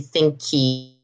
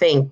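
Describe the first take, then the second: First: The word ends with an added vowel sound. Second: The word ends sharply on the k sound. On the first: The speaker calls it wrong. "You're not going to say thinky" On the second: The speaker calls it right. "There's no vowel in the end"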